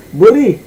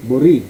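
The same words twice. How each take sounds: First: Buri said higher and louder as a correction; careful Filipino pronunciation. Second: Said in the usual way. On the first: Shown as a demonstration. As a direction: say Buri again, pitched up and stressed as the fix. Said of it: "I'm not good in accent". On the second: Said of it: "How do you pronounce this here in the Philippines?".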